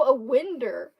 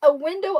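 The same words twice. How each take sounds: First: "winder" with an -er ending; country pronunciation. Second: "window" with a clear -ow ending; standard pronunciation. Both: Shown as a demonstration. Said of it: "never heard anyone call".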